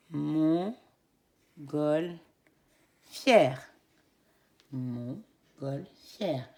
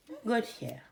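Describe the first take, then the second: First: Montgolfière very slowly cut into three beats; syllable by syllable. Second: Said in the usual way. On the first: Shown as a demonstration. Teacher correcting with the class, slowly. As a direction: stretch out Montgolfière beat by beat. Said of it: "Nous corrigeons". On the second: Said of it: "pour le mot montgolfière".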